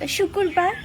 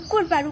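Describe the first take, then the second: First: The word begins with a sh sound. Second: The word begins with a bare vowel. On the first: The speaker calls it right. "She cannot pronounce uh" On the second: The speaker calls it wrong. "so so she says uh"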